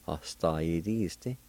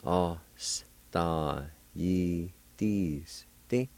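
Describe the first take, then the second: First: Said in the usual way. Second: OSTAYIDISTE broken up very slowly; syllable by syllable. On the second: Shown as a demonstration. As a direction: say "Ostayidiste" one syllable at a time, with pauses. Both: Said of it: "is pronounced like this".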